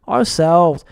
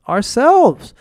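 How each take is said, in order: First: Said in the usual way. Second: Ourselves pitched higher, lifted as a rallying answer; emphatic answer. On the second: Shown as a demonstration. Answering his own question to viewers, Ourselves ringing higher. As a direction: ring out Ourselves as the big answer. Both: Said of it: "So who's really gonna save us?".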